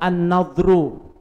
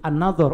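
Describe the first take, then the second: First: The word ends with an -ru sound. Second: The word ends with an -or sound. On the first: The speaker calls it wrong. "saya membaca an-nadhru" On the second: The speaker calls it right. "Dalam konteks kalimat itu memang an-nadhor"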